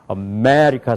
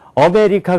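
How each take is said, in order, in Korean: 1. 한 음절에 분명한 강세가 있어요. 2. 모든 음절이 고르고 강세가 없어요. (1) "미국 사람들은 뭘 사용해요? 아메리카 사용한단 말이에요" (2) "우리는요, 아메리카 그러잖아요. 그런 게 없단 말이에요"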